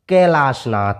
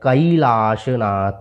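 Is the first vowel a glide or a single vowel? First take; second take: single vowel; glide. First: The first vowel is a single plain vowel. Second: The first vowel glides from a to i. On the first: The speaker calls it wrong. "साधारणतः हम आई की मात्रा को पढ़ते हैं" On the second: The speaker calls it right. "कै नहीं पढ़ के पढ़ना है"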